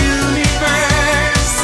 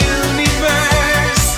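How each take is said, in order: Both takes have the same delivery.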